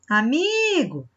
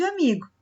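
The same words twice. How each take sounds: First: Amigo with MI stretched long and high; stress on MI. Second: Said in the usual way. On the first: Shown as a demonstration. Teacher showing the penultimate syllable, Amigo with long MI. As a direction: draw out the middle syllable of Amigo. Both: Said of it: "Ó como esse mi fica grande".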